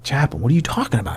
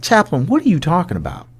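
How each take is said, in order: First: Quick, restrained puzzled question; retold puzzlement. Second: Higher-pitched, exasperated retold question; insistent bewilderment. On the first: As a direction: ask the chaplain in mild confusion. First retold puzzled question to chaplain. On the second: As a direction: press the chaplain for an explanation. Repeated question, now more insistent.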